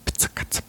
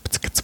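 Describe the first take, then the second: First: The words are said at an ordinary, slow pace. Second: The words are said very quickly in succession.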